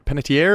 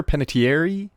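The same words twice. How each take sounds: First: "Panettiere" as pen-uh-tee-AIR; ending in -air. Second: "Panettiere" as pen-uh-tee-AIR-ee; ending in -airy. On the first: Host checking an actress's surname, "Panettiere" ending in -air. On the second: Host offering another surname reading, "Panettiere" ending in -airy. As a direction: say "Panettiere" with an added final ee. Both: Shown as a demonstration. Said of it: "Is it H-, Panettiere or Panettiere".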